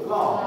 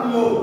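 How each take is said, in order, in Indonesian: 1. Vokalnya seperti bunyi 'aw' pada 'law'. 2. Vokalnya seperti bunyi 'oo' pada 'lu'. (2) "Jangan lu"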